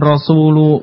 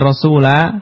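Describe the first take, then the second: First: The word ends with a u vowel. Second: The word ends with an a vowel. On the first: "bukan rasulu" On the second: "bukan rasula"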